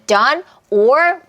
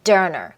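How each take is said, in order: First: The word 'or' is said fully and separately. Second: The word 'or' is reduced and linked into 'done'. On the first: "이렇게 소리를 그들이 내줬으면 우리는 listening에 아무 문제가 없습니다" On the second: "연음이 일어나니까 doneer"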